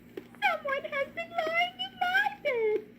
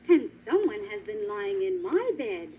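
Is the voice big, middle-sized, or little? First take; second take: little; middle-sized. First: It is said in a little baby voice. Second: It is said in a middle-sized voice.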